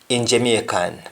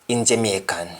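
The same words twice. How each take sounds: The two takes are said the same way.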